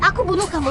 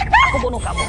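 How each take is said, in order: First: Said in the usual way. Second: Crazed scream. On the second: Acted. Mother-in-law shrieks a death threat at the wife, crazed scream.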